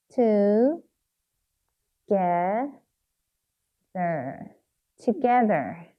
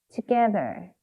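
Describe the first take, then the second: First: "Together" with long gaps between syllables; sounding out while writing. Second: Said in the usual way. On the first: Shown as a demonstration. Teacher writing it once more, "Together" in slow syllables. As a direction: spell out "Together" by ear, part by part. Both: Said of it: "한 번 더 써볼게요".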